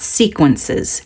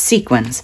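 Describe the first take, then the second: First: The word ends with an extra 'ences' syllable. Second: The word ends with a short 'ins' syllable. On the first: The speaker calls it wrong. "It's not sequences" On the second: The speaker calls it right. "it's sequins"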